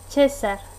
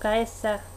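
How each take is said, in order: First: The word is said in a non-classical pronunciation. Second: The word is said in the classical pronunciation. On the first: This is how it is said in this setting. The speaker calls it right. "aquí se pronunciaría César" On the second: This is the ancient pronunciation. The speaker calls it wrong. "no Caesar, que es la pronunciación clásica"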